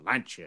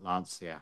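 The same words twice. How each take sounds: First: The name is pronounced in an Italian way. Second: The name is pronounced in an anglicized way. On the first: The speaker calls it right. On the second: The speaker calls it wrong.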